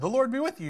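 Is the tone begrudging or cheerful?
cheerful. It is said cheerfully and willingly.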